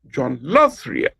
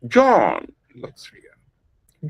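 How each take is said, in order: First: The stress falls on the word loves. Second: The stress falls on the word John. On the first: "by shifting the stress from John to loves" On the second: "I am putting the emphasis or the stress on John"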